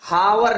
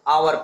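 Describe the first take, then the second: First: The word starts with an h sound. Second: The word starts with a vowel sound. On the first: The speaker calls it wrong. "इसको हावर नहीं पढ़ते" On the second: The speaker calls it right. "आवर पढ़ते हैं"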